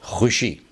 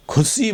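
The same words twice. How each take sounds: First: 'खुशी' with a throaty rasped kh and sh; correct Urdu pronunciation. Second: 'खुशी' as khusi, s for sh; wrong pronunciation. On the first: Teacher gives the proper word, correctly pronounced. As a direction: start 'खुशी' on a fricative kh. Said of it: "इसको बोलें खुशी". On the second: Teacher quotes a common slip, mispronounced. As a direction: say 'खुशी' with puffed k and s. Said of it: "ये गलत". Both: Shown as a demonstration.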